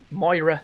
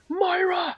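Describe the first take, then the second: First: It is said in his normal voice. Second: It is said in a dodgy Atlas voice.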